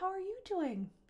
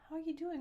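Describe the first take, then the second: First: It sounds amused and lightly smiling. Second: It sounds worried and anxious.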